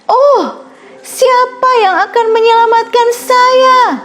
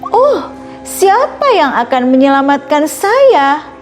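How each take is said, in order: First: It is said as loud as possible. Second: It is said a little louder.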